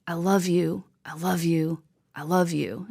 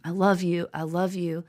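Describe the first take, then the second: First: Whispered, tender and hushed. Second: Said in the usual way. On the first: Retold or imitated. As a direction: breathe the words like a farewell. Retold words in brother's eulogy.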